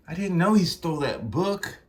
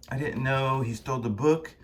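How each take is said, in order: First: Higher-pitched startled protest; defensive protest. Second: Lightly voiced, measured admission; restrained remark. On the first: Acted. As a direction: protest innocence in a high voice. First take, broken off by mistake. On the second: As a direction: state it calmly, close to natural pitch. Second take after the mistake.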